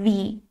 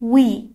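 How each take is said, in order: First: The word starts with a buzzing 'v' sound. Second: The word starts with a rounded 'w' sound. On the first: The speaker calls it wrong. "نه وی" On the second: The speaker calls it right. "صدای ما we هست"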